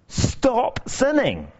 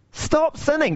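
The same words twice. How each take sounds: First: High, very slow, measured command; Jesus speaking to the healed man, slow and solemn. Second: High, quick nagging command; preacher mocking a nag; nagging stop sinning. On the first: Retold or imitated. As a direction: lay each word down slowly like a command. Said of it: "Jesus says to the healed man". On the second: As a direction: fire it off like a nagging parent. Mocking how we hear the command.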